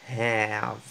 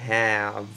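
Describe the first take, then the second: Both takes have the same delivery.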